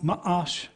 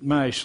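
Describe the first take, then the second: First: The word has a brief catch in the middle. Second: The word is said smoothly with no break. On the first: The speaker calls it right. "You have that little hitch and you get along" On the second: The speaker calls it wrong. "not as in Mash like the T V show"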